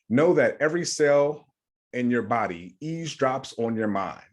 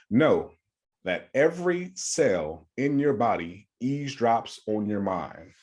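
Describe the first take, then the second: First: It is said at normal speed. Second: It is said slowly.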